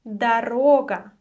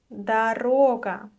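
The two takes are said the same way.

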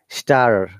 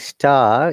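First: The final R is clearly pronounced. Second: The final R is not pronounced. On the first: This is the American way of saying it. "if you want to sound like American, you must pronounce the R" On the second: This is the British way of saying it. "instead of saying star"

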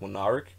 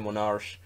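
First: The ch is said as a hard k. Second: The ch is a soft German fricative sound. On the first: "in English like K, like Monarch" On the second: "In German we would say Monarch"

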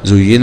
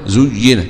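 First: The word begins with za and has a. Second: The word begins with zu and has i.

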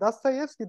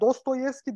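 First: The unstressed first vowel sounds like 'a'. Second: The first vowel sounds like a full 'o'. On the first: The speaker calls it right. "dememiz daha doğru. Eğer onun o harfin üstünde vurgu yoksa A diye okuyoruz" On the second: The speaker calls it wrong. "Dostoyevski değil de"

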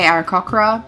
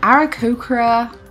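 First: The 'ko' syllable rhymes with 'cock'. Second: The 'ko' syllable rhymes with 'coke'. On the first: This is the speaker's usual habit. The speaker calls it wrong. "normally I say Aarakocra" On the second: This follows the pronunciation given on the website. The speaker calls it right. "I said Aarakocra in a very specific way"

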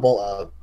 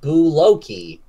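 First: The word is said with two syllables. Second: The word is said with three syllables. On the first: The speaker calls it right. "pronounced bull oak" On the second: The speaker calls it wrong. "right after I said it wrong"

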